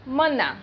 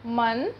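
First: "मना" with the final aa held longer; long vowel demo. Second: "मन" said quickly, short a at the end; short vowel demo. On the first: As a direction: draw out the end of "मना". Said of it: "मना में थोड़ा समय लगा". ("मना" में अंतिम आ को लंबा करें) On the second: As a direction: clip "मन" short. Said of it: "मन कितना जल्दी बोल दिए". ("मन" जल्दी, छोटे अ के साथ) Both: Shown as a demonstration.

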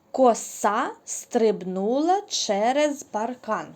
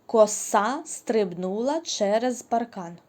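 First: «Коса» said slowly and loudly on purpose; slow, loud trick sentence for kids to fix; playful nonsense sentence; deliberate wrong word. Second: «Коса» repeated slowly and loudly; playful nonsense sentence, repeated; deliberate wrong word. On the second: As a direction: say the trick line again, slow and clear. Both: Shown as a demonstration. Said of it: "я все вірно сказала?".

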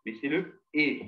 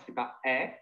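First: "E" said as a closed, tight é; right closed E. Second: "E" said as an open, wide è; wrong open E. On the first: Teacher showing the correct closed "E" to the class. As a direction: close the mouth more on "E". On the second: Teacher showing the wrong open "E" to the class. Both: Shown as a demonstration. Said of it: "c'est pas E, mais c'est le E".

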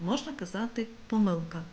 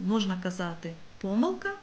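First: Demonstrating the second accepted stress of помилка; second stress variant. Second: Помилка said with stress on the first syllable, по-; demonstrating the first accepted stress of помилка; first stress variant. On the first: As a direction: stress помилка on the middle syllable, lengthened. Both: Shown as a demonstration. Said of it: "слово має подвійний наголос".

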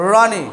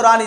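First: रानी starting with tongue curled far back; heavy curled r opening रानी; retroflex r. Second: रानी with an everyday r, tongue not curled back; light forward r in रानी; palate-placed r. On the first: Teacher showing where to speak it from, retroflex रानी. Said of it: "मूर्धा से". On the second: Teacher asking where the tongue is, palate-placed रानी. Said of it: "रानी को तालब पे लेके आओ". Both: Shown as a demonstration.

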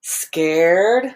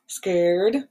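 First: Said in the usual way. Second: Soft gasping scared voice, a bit softer; gasp, then say it scared and hushed; play-acting fright for little kids; scared face. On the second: Shown as a demonstration. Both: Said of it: "What's your scared face?".

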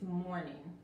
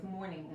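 First: "morning" with the final G barely heard; subtle final G. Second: "morning" with a hard, sounded G at the end; strong final G. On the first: Teacher correcting students' pronunciation, subtle final G in "morning". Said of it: "la G al final es tan sutil". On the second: Teacher showing students the mistake, hard final G in "morning". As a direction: finish "morning" on an overdone hard G. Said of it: "No quieren pronunciarla fuerte". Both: Shown as a demonstration.

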